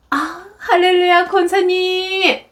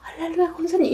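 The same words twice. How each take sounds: First: High, drawn-out churchy phone greeting; imitated two-faced phone cheer; sudden sweet greeting. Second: Softer, high-pitched polite greeting; lightly imitated phone politeness; sweet phone greeting. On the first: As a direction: switch to gushing politeness, stretching it out. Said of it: "혼을 내다가 갑자기 전화가 오면". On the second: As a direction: quickly echo mother's churchy phone voice. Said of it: "막 소리 지르다가 막".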